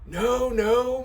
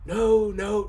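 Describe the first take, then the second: First: It is read in a put-on old man's voice. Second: It is read in the reader's normal voice.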